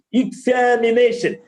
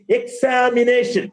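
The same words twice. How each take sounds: First: "examination" opening on a light "ik"; corrected pronunciation. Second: "examination" opening on a full "eks-saa"; wrong pronunciation. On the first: Teacher modelling after the mistake, corrected pronunciation. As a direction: start "examination" with short "ik", then a long "a". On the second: Teacher showing a common mistake, wrong pronunciation. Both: Shown as a demonstration.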